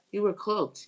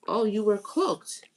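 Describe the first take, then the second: First: Said in the usual way. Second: Slow, with were drawn out and leaned on; stress on were. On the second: Real, not acted. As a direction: dwell on the word were, pulling it out slowly.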